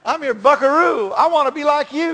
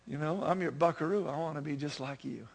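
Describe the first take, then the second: First: Put-on high, loud country twang as an adoring kid; hammed-up twangy little cowboy; sing-song country twang, pitched up and loud. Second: Put-on soft, unforced little-boy sincerity; quiet, heartfelt, lower than the corny version; tender son. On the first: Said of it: "You gotta say it with a twang". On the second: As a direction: murmur it gently to Dad. Praying son's tender reply in song.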